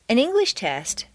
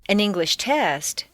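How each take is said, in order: First: The stress falls on the word English. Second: The stress falls on the word test. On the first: The test is on the English language. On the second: The test is on any subject.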